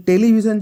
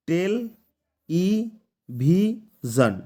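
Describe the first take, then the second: First: Said in the usual way. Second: টেল, ই, ভিশন very slow with long pauses; syllable by syllable. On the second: Shown as a demonstration. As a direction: break it up as টেল – ই – ভি – শন. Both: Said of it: "চারটা syllable দিয়ে গঠিত হয়েছে".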